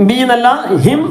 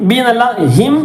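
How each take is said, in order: The two takes are said the same way.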